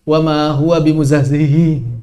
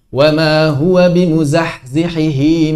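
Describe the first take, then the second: First: The h sounds at the end blur together. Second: Each h sound at the end is clearly pronounced. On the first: The speaker calls it wrong. "Jangan sampai terbaca" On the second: The speaker calls it right. "Harus diperjelas"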